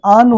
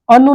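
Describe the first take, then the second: First: आनु with a long first aa; correct pronunciation. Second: अनु with a short first a, pitched higher; wrong pronunciation. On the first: Teacher giving the right prefix, long aa. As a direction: open आनु wide on 'aa'. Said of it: "आनु होता है". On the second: Teacher rejecting the faulty prefix, short a. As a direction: open अनु on a short 'uh'. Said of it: "अनु नहीं होता है". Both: Shown as a demonstration.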